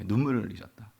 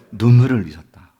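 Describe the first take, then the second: First: Much softer, lower "눈물을"; hushed echo. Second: "눈물을" hit firmly, falling away after; emphatic statement. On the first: Preacher repeating that Jesus shed tears, hushed and low on "눈물을". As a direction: let "눈물을" sink quietly. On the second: Preacher answering what Jesus shed, emphatic "눈물을". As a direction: declare it, leaning on "눈물을". Verse answer, then softer echo. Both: Shown as a demonstration.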